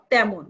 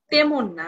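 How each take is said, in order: First: তেমন said with open a-like e, "tæmon"; correct pronunciation. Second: Said in the usual way. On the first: Shown as a demonstration. Teacher modelling তেমন with open vowel. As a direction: say তেমন with the e opened toward a. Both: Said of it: "উচ্চারণ করব তেমন".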